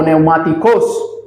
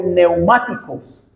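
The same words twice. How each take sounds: First: "neumáticos" said as neu-ma-ti-CÓS; stress on last syllable. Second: Said in the usual way. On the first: Shown as a demonstration. Preacher correcting a Greek word, "neumáticos" stressed on the final -cós. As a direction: put the accent of "neumáticos" on the final O. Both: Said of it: "con tilde en la O".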